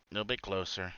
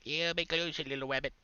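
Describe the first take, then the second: First: Said in the usual way. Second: Higher, softer coaxing voice; coaxing sing-song. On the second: Pretend. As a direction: lure a pet closer gently. Coaxing the rabbit closer.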